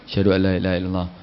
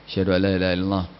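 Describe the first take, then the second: Both takes have the same delivery.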